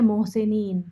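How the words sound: It is pronounced with Urdu vowel quality. The speaker calls it wrong. "उसको उर्दू की तरह ही पढ़ जाएँगे"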